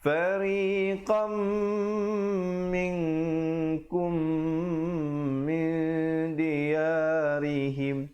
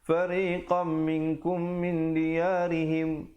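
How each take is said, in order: First: The nasal sounds are held for two beats. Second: The nasal sounds are clipped short. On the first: The speaker calls it right. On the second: The speaker calls it wrong.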